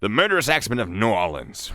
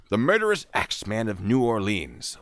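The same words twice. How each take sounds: First: "New Orleans" run together as NAW-lins; teasing local contraction of "New Orleans"; Nawlins pronunciation. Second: "New Orleans" ending in a long "leens"; New Orleans pronounced in full. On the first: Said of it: "I'm gonna say Nolans". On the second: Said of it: "when I say New Orleans". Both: Shown as a demonstration.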